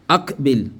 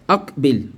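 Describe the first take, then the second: Both takes have the same delivery.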